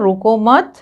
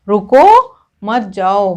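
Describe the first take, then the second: First: There is a pause after 'mat'. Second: There is a pause after 'ruko'. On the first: The listener is told not to stop but to go. "इसका मतलब हुआ रुको मत, जाओ, मतलब रुकने के लिए मना किया जा रहा है" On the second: The listener is told to stop and not go. "मतलब रुकने के लिए कहा जा रहा है और जाने के लिए मना किया जा रहा है"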